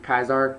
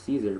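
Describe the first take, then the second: First: The name begins with a hard K sound. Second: The name begins with a soft S sound. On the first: This is how the name is said in the game. "it's actually Kaisar. That's how they pronounce it in the game" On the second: This is how many people assumed the name was said. "I thought his name was Caesar"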